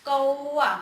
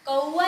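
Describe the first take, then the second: First: कौवा said right, with a full open "au" sound; the correct कौवा with its "au" vowel; correct pronunciation. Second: कौवा said as a plain "ko-wa", with no "au" sound; a deliberately wrong कौवा, the "au" swapped for "o"; wrong Hindi कौवा, said "ko-wa"; wrong pronunciation. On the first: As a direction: correct Hindi कौवा, with a clear "au". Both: Shown as a demonstration. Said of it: "कौवा नहीं बोलेंगे".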